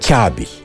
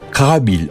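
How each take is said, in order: First: The K is thin, fronted toward the palate. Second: The K is thick, pronounced further back. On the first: "K ince" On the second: "Ama bunun Kabil olarak söylendiğini de duyuyoruz"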